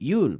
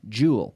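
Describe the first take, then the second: First: The word begins with a soft Y sound. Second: The word begins with a voiced J sound. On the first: The speaker calls it wrong. "a lot of people mispronounce it by treating it like a Y" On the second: The speaker calls it right. "think of a C H and activate the vocal cords, and you have the J"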